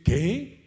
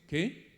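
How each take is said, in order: First: It is said with amazement. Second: It is said as a question.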